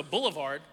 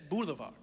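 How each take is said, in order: First: Said in the usual way. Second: Very British "boulevard", lower and softer; British accent. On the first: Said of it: "he said boulevard, like, very British". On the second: Retold or imitated. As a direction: say "boulevard" like a proper Brit. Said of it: "like, very British".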